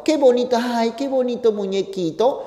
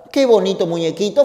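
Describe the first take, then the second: First: Put-on a touch of a doting girl, higher and softer; lightly voiced girl gushing over the toy; mild sweet girl voice; girlfriend cooing. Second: Said in the usual way. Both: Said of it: "y la chica dice".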